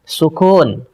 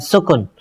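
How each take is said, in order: First: The second syllable has a long vowel. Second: The second syllable has a short vowel. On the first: The speaker calls it right. "Yang benar itu pakai mad" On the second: The speaker calls it wrong. "bukan sukun"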